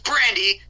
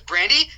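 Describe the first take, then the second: First: The name is said in a stern, scolding tone. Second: The name is said in a warm, cheerful tone. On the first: The dog will feel scared. "then she's gonna be scared" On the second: The dog will come over excited. "she's gonna be like, Brandy, Brandy, Brandy"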